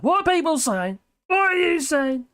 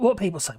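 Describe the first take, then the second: First: "What are people saying?" lifted higher, sing-song; sing-song question. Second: Said in the usual way. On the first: Real, not acted. Streamer calling out to chat, higher and sing-song. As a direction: chirp the question upward.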